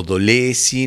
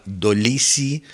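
First: "Dolesi" with an e sound in the middle; Dolesi pronunciation. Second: "Dolisi" with an i sound in the middle; Dolisi pronunciation. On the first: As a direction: say "Dolesi", the middle vowel as a Spanish e. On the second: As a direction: say "Dolisi", the middle vowel like English double e. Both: Shown as a demonstration. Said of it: "no sé cómo ella lo pronuncia".

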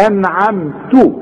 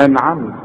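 First: أنعمت with a clear final vowel, slow; full vowel. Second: أنعمت ending on a silent ت; pausal form. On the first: Teacher shows the joined form to his student. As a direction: say أنعمت with the last vowel sounded. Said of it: "فدي هي". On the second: Teacher shows the pausal form. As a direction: stop on أنعمت with a sukun. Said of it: "احنا بنسكن الحرف". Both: Shown as a demonstration.

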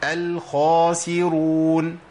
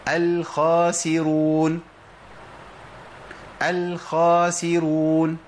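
First: الخاسرون with a full, heavy emphatic خ, drawn out slowly; teacher models الخاسرون with rounded lips on the خ; correct heavy kha. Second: الخاسرون with a thin, light خ; teacher demonstrating الخاسرون with the خ wrongly thinned; wrong thin kha. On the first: Quran teacher models the correct form, heavy emphatic kha. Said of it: "لازم أقولها إزاي؟". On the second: Teacher demonstrating a common mistake, thin light kha. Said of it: "ما ينفعش". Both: Shown as a demonstration.

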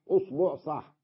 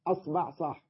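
First: أصبع said usbuʕ, u then u; أصبع with damma on the hamza and damma on the ba; damma vowels. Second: أصبع said asbaʕ, a then a; أصبع with fatha on the hamza and fatha on the ba; fatha first vowel. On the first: (أصبع بضم الهمزة وضم الباء) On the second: (أصبع بفتح الهمزة وفتح الباء) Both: Shown as a demonstration. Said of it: "كيفما لفظتها صحيحة".

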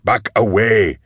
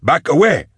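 First: Firm command, held back from a full yell; shouted order. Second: High, urgent shouted command; yelled order. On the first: Man ordering animations that keep coming, firm raised command. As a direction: repeat the order firmly, moderately raised voice. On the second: Man ordering animations to halt, high urgent yell. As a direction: cry it out high to halt them. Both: A narrator's reading. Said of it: "Goblika ordered".

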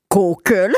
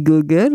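First: "Google" said as "Kookel", hard k and dark o; Alsatian pronunciation. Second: Said in the usual way. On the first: Shown as a demonstration. Host teaching listeners how Alsatians say "Google", Alsatian pronunciation. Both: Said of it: "comment on dit Google en alsacien".

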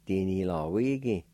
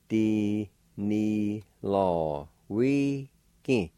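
First: "Di, ni, lo, wi, gi" run together as one word; "Di, ni, lo, wi, gi" as a connected word; joined-up pronunciation. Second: "Di, ni, lo, wi, gi" in separate syllables, short gaps; "Di, ni, lo, wi, gi" broken up for learners; syllable-by-syllable pronunciation. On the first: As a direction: link "Di, ni, lo, wi, gi" without pauses. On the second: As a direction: say each of "Di, ni, lo, wi, gi" apart, evenly held. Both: Shown as a demonstration. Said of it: "It's pronounced like this".

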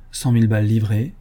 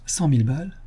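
First: Said in the usual way. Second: Incredulous question. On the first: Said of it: "Il lut". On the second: Acted. Ganimard echoes the sum to Lupin, mild disbelief. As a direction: echo it in disbelief. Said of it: "fit-il".

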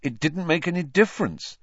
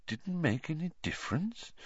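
First: Put-on high, bitter boy's protest. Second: Very soft questioning echo; quiet. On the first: Pupil rejecting his headmaster's praise, bitterly. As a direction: protest bitterly, pitch raised. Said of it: "said Harry bitterly". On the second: Headmaster questioning the pupil's words, quietly. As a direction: repeat it softly, rising in question. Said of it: "said Dumbledore quietly". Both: A narrator's reading.

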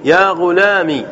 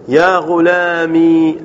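First: يا غلامي with a shorter final "mi"; kasra without ya. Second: يا غلامي with a long drawn-out "mee"; very slow "ya ghulamee" for يا غلامي; mistakenly keeping the ya. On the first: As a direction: say يا غلامي as "ya ghulami", not lengthening the end. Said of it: "بدون ياء". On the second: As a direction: hold the last ee of يا غلامي. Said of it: "آه، قلت بدون ياء". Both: Shown as a demonstration.

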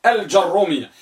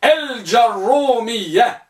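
First: Said in the usual way. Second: الجرومية slowly, with a heavy doubled ر and long u. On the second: Shown as a demonstration. Teacher modelling the second type, slow and heavy. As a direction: stretch الجرومية, leaning on the ر. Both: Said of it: "مضمومة مع تشديد وتثقيل".

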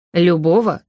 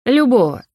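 First: Steady, trained questioning voice; well-trained voice. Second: Higher, louder menacing villain voice; dark lord. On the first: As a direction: ask it with a trained, controlled voice. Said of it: "хорошо поставленным голосом спросил Адриан". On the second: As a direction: answer like a gloating dark lord. Advisor's menacing answer. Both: A narrator's reading.

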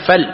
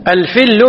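First: "فل" pronounced fall, open a instead of i; fatha on the fa. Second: "الفل" pronounced al-fill, i vowel and doubled l; kasra on the fa. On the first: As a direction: say "فل" with a short a after the fa. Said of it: "مرويا بالفتح". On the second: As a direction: say "الفل" with a short i after the fa. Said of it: "بكسر". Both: Shown as a demonstration.

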